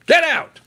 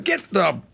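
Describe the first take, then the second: First: Sudden loud high bark; furious shout ordering them out; shouted command. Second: Said in the usual way. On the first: Real, not acted. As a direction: blast it out. Repeated outburst.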